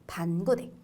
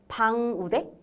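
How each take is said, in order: First: The n closes the first syllable, then g. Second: The ng sound closes the first syllable. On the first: The hyphen shows where the syllables divide. The speaker calls it right. "반, 끊어서 읽으라고" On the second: The letters are misread without the hyphen. The speaker calls it wrong. "어떤 사람은 음, 방우대라고 읽을 수도 있거든요"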